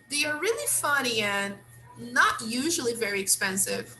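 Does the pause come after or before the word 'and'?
after. There is a pause after the word 'and'. "in another way"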